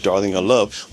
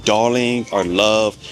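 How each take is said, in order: First: Said in the usual way. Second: Drawn out slowly, the way a Brit calls you love; slow British endearment. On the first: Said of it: "not used to being called". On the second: Shown as a demonstration. Vlogger showing how Brits address you, slow and fond. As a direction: linger on darling like a shopkeeper would. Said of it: "You will be called".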